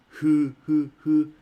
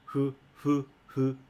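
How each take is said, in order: First: It is said with open, rounded lips. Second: It is blown out through nearly closed lips. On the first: The speaker calls it wrong. "instead of using this uh" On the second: The speaker calls it right. "close their mouths a little bit... as if you're blowing away from your mouth"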